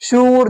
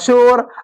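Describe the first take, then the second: First: The vowel is stretched into a long 'oo'. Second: The vowel is a short 'o' sound. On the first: The meaning gets spoiled. The speaker calls it wrong. "अगर मैं इसको खींच कर पढ़ूंगा तो ये बिगड़ जाएगा" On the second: It means noise. The speaker calls it right. "मजहूल पढ़ेंगे"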